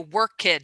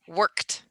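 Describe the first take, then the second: First: The -ed ending is a separate syllable. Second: The -ed ending is not a separate syllable. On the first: The speaker calls it wrong. "you want to say the ed" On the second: The speaker calls it right. "in English we say worked"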